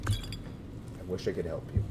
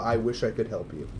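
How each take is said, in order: First: Softer, slower, drawn-out I wish I could help you; mock pitiful aside. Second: Said in the usual way. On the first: Shown as a demonstration. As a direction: sigh it out as a mock-sad afterthought. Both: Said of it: "said twice, second differently".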